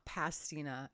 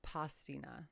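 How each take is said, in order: First: The word is said with an American-style pronunciation. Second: The word is said with an Italian-style pronunciation. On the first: The speaker calls it wrong. "it's not pastina" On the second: The speaker calls it right. "It's pastina"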